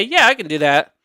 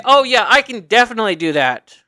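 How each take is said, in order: First: A little lazy. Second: Assured, leaning into "definitely"; persuasive tone. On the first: Applicant answering an interviewer without conviction, a little lazy. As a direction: agree as if you can't be bothered. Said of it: "it sounds a little lazy". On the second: Applicant assuring an interviewer they can do it, persuasive. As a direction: say it like you really mean it. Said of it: "the tone of it is". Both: Shown as a demonstration.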